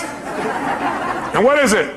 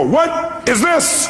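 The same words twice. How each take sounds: First: Slow, laughing "what is it" to the crowd. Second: Mock exasperated shout. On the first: Real, not acted. Asking the audience the punchline, laughing. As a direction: let the joke land with a laugh. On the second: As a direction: stretch it way out like catching someone out. Friend pulls salt from shelf.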